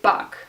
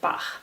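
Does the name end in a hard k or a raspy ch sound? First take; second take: hard k; raspy ch. First: The name ends with a hard k sound. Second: The name ends with a raspy ch sound. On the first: The speaker calls it wrong. "a lot of native English speakers say Bach" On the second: The speaker calls it right. "he's called Bach with a sound in the end"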